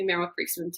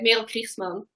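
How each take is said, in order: First: The name is pronounced with English sounds. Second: The name is pronounced with Dutch sounds. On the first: This is how English speakers say the name. "my husband calls me Merel Kriegsman too" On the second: This is the name's original pronunciation. "that's how you say it"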